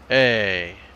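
The pitch goes down on the word. "more like down, like"

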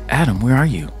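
The voice sounds tender and longing. The caller misses him and wants him back. The speaker calls it right. "it's more like, Adam, where are you? You should be with me"

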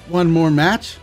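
It is said hesitantly, with doubt.

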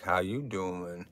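It is said as a Joey from Friends impression.

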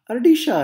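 The double L sounds like 'sh', Argentinian style.

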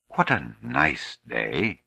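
It is said in a soft, caressing tone.

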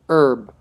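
It is said the American way. "But the American English, ... they say herb"

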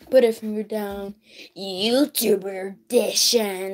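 It is an exaggerated imitation of the speaker.

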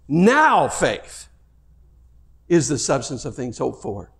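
The word 'now' carries the main stress. It means faith for this present moment. "what if you read it this way?"

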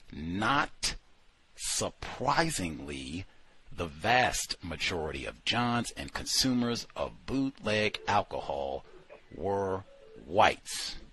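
The opening words are strongly emphasized.

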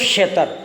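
The word begins with a sh sound. "ખનો છ અને અથવા તો શ ઉચ્ચાર થાય છે"

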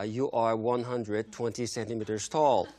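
It is said in a cold, flat tone.

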